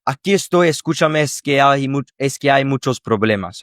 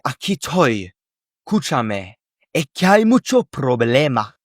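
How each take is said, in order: First: "Aquí estoy" and "muchos problemas" with every letter pronounced; full careful pronunciation of every sound; careful textbook Spanish. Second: "Aquí estoy" as "aquí toy", letters skipped, words smushed together; relaxed Andalusian-style clipping, "mucho problema" run together; native Spanish speech. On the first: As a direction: read it out like a learner. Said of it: "let's just have these words here". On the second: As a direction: drop sounds like a native speaker. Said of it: "A native would say". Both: Shown as a demonstration.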